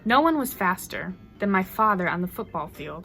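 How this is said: It is read with small pauses between lines. "as a poem"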